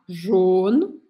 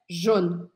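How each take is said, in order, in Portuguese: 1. A vogal é pronunciada mais fechada. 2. A vogal é pronunciada mais aberta. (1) "Você pode falar mais fechado" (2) "ou um pouquinho mais aberto"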